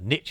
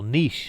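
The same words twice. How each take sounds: First: The word has an American pronunciation. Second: The word has a British pronunciation. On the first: "in America, they call it" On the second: "as they as they say in England or in the United Kingdom and Australia"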